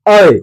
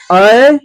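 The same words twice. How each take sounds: First: ऐ said firmly with a falling glide; extra force on ऐ. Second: Said in the usual way. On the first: Shown as a demonstration. Teacher demonstrating the vowel to pupils, ऐ with extra force. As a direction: put more force into ऐ, ending downward. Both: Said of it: "इसमें थोड़ा ज्यादा जोर आ जाएगा".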